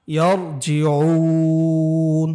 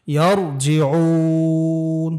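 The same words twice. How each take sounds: First: ইয়ারজিউন with the long vowel held very long; madd stretch. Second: ইয়ারজিউন long-held, stopping on the final letter; madd stop. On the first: Teacher shows the madd length to students. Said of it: "এখানে মদ্দে আরজি". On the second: Teacher repeats the word for students with a stop on the final letter. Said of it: "মদের হরফের বামের হরফে আমরা থেমেছি". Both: Shown as a demonstration.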